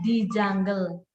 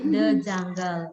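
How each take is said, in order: First: The word 'the' sounds like 'dee'. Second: The word 'the' sounds like 'duh'. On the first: The speaker calls it wrong. "Ada nggak yang nyebutnya di jungle? Nggak ada" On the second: The speaker calls it right. "Nyebutnya pasti the jungle"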